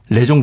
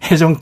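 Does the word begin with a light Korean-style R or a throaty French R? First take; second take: Korean-style R; throaty R. First: The word begins with a light Korean-style R. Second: The word begins with a throaty French R.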